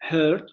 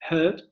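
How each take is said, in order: No difference in how they are said.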